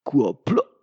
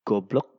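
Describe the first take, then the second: First: It is said in an emphasized Japanese-style way. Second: It is said in a plain Indonesian way. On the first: "in Japanese they tend to enhancing it" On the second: "normally in Indonesia"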